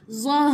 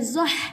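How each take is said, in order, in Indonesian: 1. Huruf h di akhir itu hembusan yang lembut dan ringan. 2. Huruf h di akhir itu hembusan yang kasar, dari tenggorokan. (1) "ini huruf ha bulat" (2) "Kita tak baca zah. Ha, itu huruf ha pedas"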